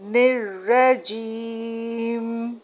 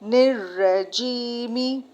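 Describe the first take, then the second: First: The word ends on the 'm' consonant. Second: The word ends with a short 'i' vowel. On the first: "ये last word साकिन हो जाएगा, मतलब साइलेंट हो जाएगा" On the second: "मीम जेर मी"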